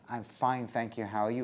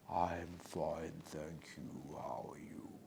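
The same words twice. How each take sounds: First: It is said at normal speed. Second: It is said very slowly and deeply.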